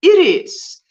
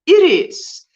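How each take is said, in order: First: The word has a Spanish pronunciation. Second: The same.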